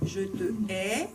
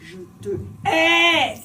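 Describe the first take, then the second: First: It is said flatly, without expression. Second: It is said with strong, expressive consonants.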